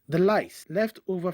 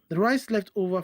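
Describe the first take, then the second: First: The r and l sounds are swapped. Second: The r and l sounds are standard.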